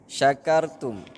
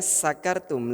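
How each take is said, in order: First: The word begins with an 'sh' sound. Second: The word begins with an 's' sound. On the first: You are grateful. The speaker calls it right. "huruf sya" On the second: You are drunk. The speaker calls it wrong. "huruf sya ini dibaca dengan huruf sa"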